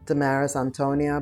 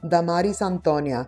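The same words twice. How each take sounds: First: The name is said with an English accent. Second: The name is said with a Spanish accent. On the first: The speaker calls it wrong. "In English, I feel like it's like a little bit like, eh" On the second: The speaker calls it right. "my name in the Spanish accent"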